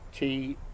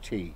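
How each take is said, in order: First: The word is said lightly and daintily. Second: The word is said plainly and heartily. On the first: A small, delicate cup of tea is meant. "imagine you're holding a very dainty teacup" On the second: A big mug of tea is meant. "you're likely to get a mug of tea, not a dainty little cup"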